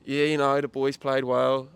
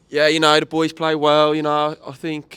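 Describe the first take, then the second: First: Slow, put-on Birmingham accent, as the player; a shaky Brummie accent, slowly. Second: Put-on a second try at a Brummie accent; the player in a Birmingham accent. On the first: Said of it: "Is that supposed to be a Birmingham accent?". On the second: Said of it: "I can actually do a Brum-, little Brumtown accent".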